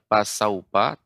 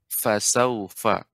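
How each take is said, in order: First: The word begins with a hard p sound. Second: The word begins with a breathy f sound. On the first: The speaker calls it wrong. "bukan pasaupa" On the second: The speaker calls it right. "tapi fasaufa"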